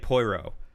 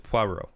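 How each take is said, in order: First: The name is said with an English-sounding pronunciation. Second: The name is said with a French-sounding pronunciation. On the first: The speaker calls it wrong. "I keep wanting to say" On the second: The speaker calls it right. "but it's"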